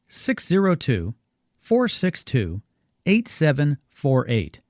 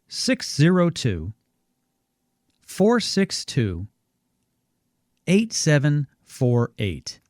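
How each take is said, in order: First: The number is read at normal speed. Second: The number is read more slowly.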